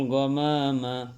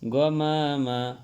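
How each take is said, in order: The two takes are said the same way.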